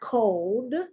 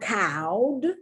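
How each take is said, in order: First: The vowel sounds like the oh in go. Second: The vowel sounds like the ow in cow. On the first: "It's not" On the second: "It's not"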